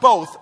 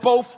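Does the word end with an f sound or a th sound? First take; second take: th; f. First: The word ends with a th sound. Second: The word ends with an f sound. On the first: "Not both" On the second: "both with an F"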